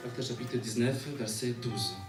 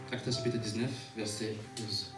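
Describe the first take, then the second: No difference in how they are said.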